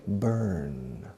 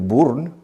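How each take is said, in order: First: "burn" with an ER vowel, as BERN; English "burn", one central R-coloured vowel; correct pronunciation. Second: "burn" said as written in Spanish, BOORN; Spanish letter-by-sound reading of "burn"; spelling pronunciation. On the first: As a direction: say "burn" rhyming with learn. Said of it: "pero se pronuncia burn". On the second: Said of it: "se escribe burn". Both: Shown as a demonstration.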